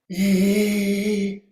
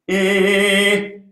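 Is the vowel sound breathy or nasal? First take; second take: breathy; nasal. First: The vowel is breathy and lacks resonance. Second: The vowel is nasal and bright with resonance. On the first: The sound will not carry far. The speaker calls it wrong. "that sound's not going to carry very far" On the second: The sound carries and echoes. The speaker calls it right. "put it in the nose"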